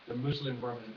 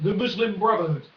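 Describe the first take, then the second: First: Ominous repeat. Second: Said in the usual way. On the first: Shown as a demonstration. Vlogger repeating the party name to viewers, lower and ominous. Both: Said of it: "repeats the name darker".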